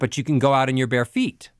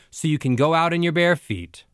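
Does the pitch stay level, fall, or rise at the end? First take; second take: rise; fall. First: The pitch goes up at the end. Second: The pitch goes down at the end.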